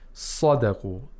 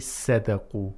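First: The first s is heavy and full. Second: The first s is light and thin. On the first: The speaker calls it right. "We say sadaqu" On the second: The speaker calls it wrong. "We don't say sadaqu"

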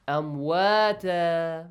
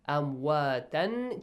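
First: The word ends with a long a vowel. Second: The word ends with a nasal -an sound. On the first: "ألف مد" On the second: "you change تنوين فتحة to"

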